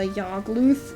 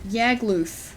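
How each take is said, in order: First: The name is said to rhyme with 'Smogtooth'. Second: The name ends like 'loose' said with a lisp. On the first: "rhyming with Smogtooth" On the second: "Like, loose with a lisp"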